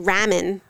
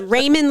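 First: The first vowel is a short A sound. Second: The first vowel is a long A sound. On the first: "That would be ramen" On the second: "long A"

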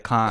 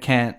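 First: It is said in an Australian accent. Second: It is said in an American accent.

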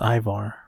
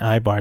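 First: The middle consonant is a V sound. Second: The middle consonant is a B sound. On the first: The speaker calls it right. "it's with the V as in Victor" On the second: The speaker calls it wrong. "I'm saying it with the B as in boy"

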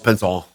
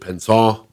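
First: The word is pronounced with Midwestern American sounds. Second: The word is pronounced with French sounds. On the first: "I'm just going on regular Midwestern" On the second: "That sounded French"

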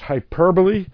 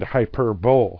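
First: The word ends with an unstressed 'buh-lee' sound. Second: The word ends with a 'bowl' sound like pole. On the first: The speaker calls it right. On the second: The speaker calls it wrong.

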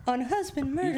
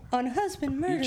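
First: It is said in an affected, put-on reading voice. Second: The same.

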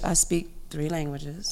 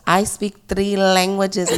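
First: It is said in a plain, casual way. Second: It is said boldly, with strong confident energy.

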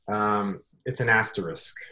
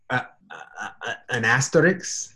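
First: The word ends with an sk sound. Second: The word ends with a ks sound. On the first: The speaker calls it right. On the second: The speaker calls it wrong. "like asterisk and obelisk"

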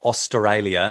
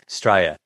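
First: The word is said with all its syllables. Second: The word is clipped to fewer syllables. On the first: "It's not Australia. It's too many syllables" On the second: "We just say Australia"

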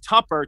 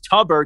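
First: The middle consonant is a p sound. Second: The middle consonant is a b sound. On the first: The speaker calls it right. "I know now it's Tupper, T-U-P-P-E-R" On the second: The speaker calls it wrong. "for the longest I thought it was Tubber, T-U-B-B-E-R"

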